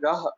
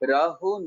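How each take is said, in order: First: The word ends plainly with no final vowel. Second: The word ends with an added 'u' vowel. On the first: The speaker calls it right. "यहाँ पर सही उच्चारणता क्या होगी" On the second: The speaker calls it wrong. "राहो नहीं पढ़ा जाएगा"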